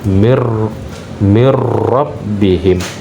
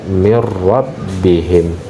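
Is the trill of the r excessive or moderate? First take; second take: excessive; moderate. First: The r is trilled far too long and heavily. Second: The r is trilled clearly but only briefly. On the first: The speaker calls it wrong. "keliru bacaan seperti itu" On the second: The speaker calls it right. "Maka dibaca mir rabbihim. Ya, jadi jelas"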